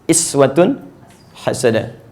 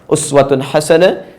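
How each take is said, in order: First: The first word begins with an i vowel. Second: The first word begins with an u vowel. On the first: This follows another canonical reading tradition. "dengan harakat kasrah" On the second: This follows one canonical reading tradition. "bisa dengan harakat dhammah"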